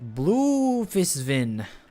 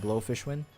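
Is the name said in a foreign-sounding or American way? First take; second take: foreign-sounding; American. First: The name is said with a foreign-sounding pronunciation. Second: The name is said with an American pronunciation.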